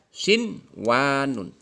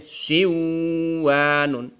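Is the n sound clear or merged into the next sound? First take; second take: clear; merged. First: The n sound is pronounced clearly before w. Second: The n sound merges into the following w. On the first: The speaker calls it right. "maka dibaca" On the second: The speaker calls it wrong. "tidak boleh"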